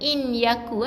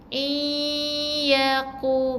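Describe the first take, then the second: First: The n sound is pronounced clearly before y. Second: The n sound merges into the following y. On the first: The speaker calls it wrong. "Bukan in yaku eh" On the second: The speaker calls it right. "Bunyikan dengan idgham"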